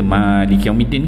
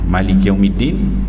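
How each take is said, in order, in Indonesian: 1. Vokal pertama Malik Yaumiddin panjang. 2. Vokal pertama Malik Yaumiddin pendek. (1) "Biasa kita" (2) "tanpa panjang"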